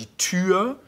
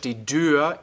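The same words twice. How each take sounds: First: The noun starts with a T sound. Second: The noun starts with a D sound. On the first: This is the Standard German form. "Auf Hochdeutsch" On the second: This is the Low German form.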